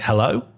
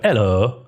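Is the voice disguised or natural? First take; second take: natural; disguised. First: Spoken in the speaker's ordinary, natural voice. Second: Spoken in a put-on, disguised character voice. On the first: "if I'd say normally" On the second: "through the voice changer"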